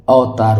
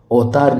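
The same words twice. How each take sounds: First: अवतार starting "av"; correct separate v. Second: अवतार starting with "au"; wrong merged vowel. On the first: Teacher gives the correct अवतार, clear "av" start. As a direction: say अवतार as "av-taar". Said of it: "अवतार होता है". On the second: Teacher rejects this अवतार, first syllable merged to "au". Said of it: "अवतार नहीं होता". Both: Shown as a demonstration.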